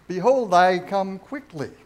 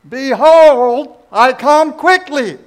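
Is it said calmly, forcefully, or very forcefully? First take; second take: calmly; very forcefully. First: It is said in a calm, plain voice. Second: It is said with maximum force and loudness.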